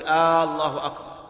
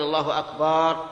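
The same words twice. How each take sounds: First: The opening vowel of Allah is drawn out. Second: The vowel after the b is drawn out. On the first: "يمد الهمزة فيقول الله أكبر" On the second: "يمد الباء فيقول الله أكبر"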